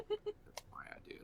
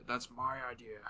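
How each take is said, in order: First: High whispered claim; whispering. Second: Said in the usual way. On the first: Acted. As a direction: whisper it like a secret. Claiming the joke, said twice.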